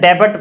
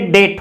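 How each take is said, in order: First: The b is pronounced. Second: The b is silent. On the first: The speaker calls it wrong. "सामान्यतः डेबट पढ़ते हैं" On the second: The speaker calls it right. "लेकिन ये डेट होता है"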